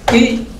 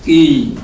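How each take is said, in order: First: "ki" high, short and cut off; short vowel. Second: "ki" held long with a falling tone; long vowel. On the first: Teacher combining K with I, short "ki". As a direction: say a brief, higher "ki". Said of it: "K, I". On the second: Teacher combining K, I and ba, long "ki". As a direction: draw out "ki" and let it fall. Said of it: "K, I, ba". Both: Shown as a demonstration.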